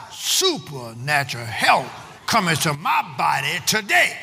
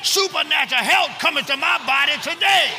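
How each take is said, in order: First: Slow, measured declaration; with conviction. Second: High, urgent declaration; with conviction. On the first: Preacher models the confession for the congregation, slow and deliberate. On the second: Preacher urges the congregation to repeat the confession, high and fervent. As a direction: shout it high, rallying the crowd. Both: Shown as a demonstration. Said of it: "Say it with some conviction".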